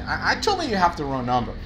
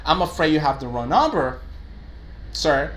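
First: A blunt, too-direct reply to a client; blunt wrong version. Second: A polite, gentle customer-service reply; polite version. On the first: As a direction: brush the caller off bluntly. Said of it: "No puedo decir eso". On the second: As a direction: soften it for the client. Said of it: "But an expression like". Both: Shown as a demonstration.

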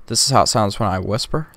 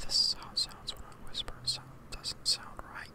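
First: Said in the usual way. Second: Fully unvoiced hushed whisper. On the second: Shown as a demonstration. Testing the mic with the compressor off, whispering.

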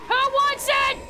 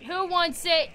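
First: High, fierce battle challenge; high combative shout; yelled taunt. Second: Said in the usual way. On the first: Real, not acted. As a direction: yell the challenge at your enemies. Taunt turned into yell.

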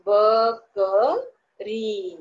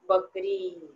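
First: बकरी drawn out very slowly, each sound stretched; slow spelling-out. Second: Said in the usual way. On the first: Shown as a demonstration. Teacher sounding out बकरी very slowly for spelling. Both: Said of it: "बघा बरं कसा लिहितात".

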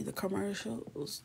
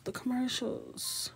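First: Said in the usual way. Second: "commercials" drawn out high and slow, overcome; overwhelmed. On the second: Real, not acted. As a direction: stretch "commercials" up high like it's too much to bear. Repeating commercials, second more emotional.

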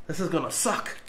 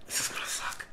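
First: Said in the usual way. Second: Breathy whispered dread before the bite; nervous whisper. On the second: Real, not acted.

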